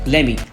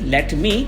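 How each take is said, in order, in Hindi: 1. यह जुड़कर एक छोटे शब्द में बोला जाता है। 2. यह दो अलग-अलग, साफ शब्दों में बोला जाता है।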